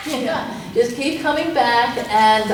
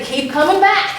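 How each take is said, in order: First: Said in the usual way. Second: Quoting a slogan. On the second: Retold or imitated. Coach quoting the twelve-step motto, higher and brighter. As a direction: pitch it up like a cheerful motto. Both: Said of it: "twelve-step programs will say".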